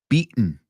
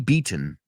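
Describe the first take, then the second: First: The middle t sound is not clearly pronounced. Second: The middle t sound is clearly pronounced. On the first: "Americans say beaten" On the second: "If you're British, you say the T"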